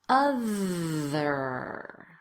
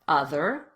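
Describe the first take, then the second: First: The word is said slowly and drawn out. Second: The word is said at normal conversational speed. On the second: "Let's say it in a normal conversational way"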